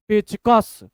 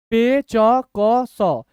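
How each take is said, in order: First: Said in the usual way. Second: Very slow, each letter standing alone; syllable by syllable. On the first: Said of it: "थोड़ा speed बोलने का तरीका". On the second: Shown as a demonstration. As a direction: sound out letters with gaps between. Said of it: "तोड़ तोड़ के पढ़िए".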